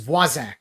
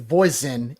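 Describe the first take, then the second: First: The name is said the Cajun way. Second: The name is said the Alabama way. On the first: "in South Louisiana is Voisin" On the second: "I guess you pronounce it Voisin in uh, Alabama"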